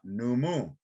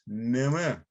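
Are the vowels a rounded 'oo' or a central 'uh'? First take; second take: oo; central uh. First: The vowels sound like a rounded 'oo'. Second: The vowels sound like a central 'uh'. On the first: The speaker calls it wrong. "It's not numu" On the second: The speaker calls it right. "it's Nima ... uh sound ... as found in good"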